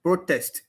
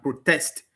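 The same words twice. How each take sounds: First: "Protest" stressed on PRO; PRO-test, first syllable stressed; noun stress. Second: "protest" stressed on TEST; pro-TEST, second syllable stressed; verb stress. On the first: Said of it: "which is the noun". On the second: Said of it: "stress on the second syllable". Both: Shown as a demonstration.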